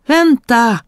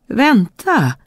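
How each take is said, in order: First: Higher, louder frog cry; the frog shouts louder as she runs away; frog shouting. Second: High call after her; a high frog's call after the fleeing princess. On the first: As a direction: shout desperately after her. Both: Acted. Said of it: "ropade grodan".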